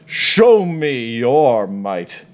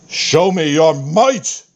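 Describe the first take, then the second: First: Drawn-out, stately taunt; measured god's challenge; slow grand challenge. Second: Higher, slow, ringing taunt; the god's final thundering call; booming climactic challenge. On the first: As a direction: dare them slowly and grandly. Fitander's first challenge. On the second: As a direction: build the dare to a proud peak. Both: Acted.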